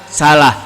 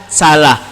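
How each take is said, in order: No difference in how they are said.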